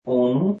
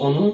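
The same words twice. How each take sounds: First: অনু with a long opening o; spelled-as-spoken pronunciation. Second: Said in the usual way. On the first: Shown as a demonstration. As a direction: say অনু slowly as "o-nu". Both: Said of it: "অনুটা হবে অনু".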